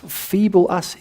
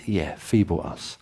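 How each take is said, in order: First: Mock disbelief. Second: Calm confirmation. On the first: Mock incredulous congregation voice. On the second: Acted. Answering the question calmly.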